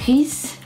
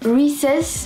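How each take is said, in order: First: The name is pronounced the French way. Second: The name is pronounced the English way. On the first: "en français c'était Reese" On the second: "là normalement j'ai fait la prononciation anglaise"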